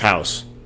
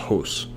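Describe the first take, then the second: First: It is said with an American accent. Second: It is said with a Canadian accent. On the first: "it's house" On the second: "he has the Canadian accent"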